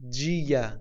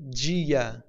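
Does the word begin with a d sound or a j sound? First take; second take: j sound; j sound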